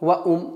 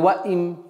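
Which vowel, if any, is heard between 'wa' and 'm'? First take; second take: u; i. First: An extra 'u' vowel is inserted before the m. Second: An extra 'i' vowel is inserted before the m. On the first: "Нет" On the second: "или ваим"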